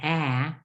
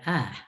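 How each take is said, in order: First: The vowel is full, as spelled. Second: The vowel is weak and reduced. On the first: The speaker calls it wrong. "it's not a" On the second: The speaker calls it right. "but a"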